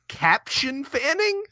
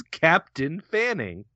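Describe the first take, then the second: First: CAPTION with a "shun" ending, pitched higher; higher questioning Caption Fanning, "sh" in the middle; misspelling read literally. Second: CAPTAIN said with a plain "tin" ending; Captain Fanning, with "Captain" ending in a t sound; name read as Captain. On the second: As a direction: read Captain as the usual rank, "CAP-tin". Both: Shown as a demonstration. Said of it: "Oh, it's spelled wrong".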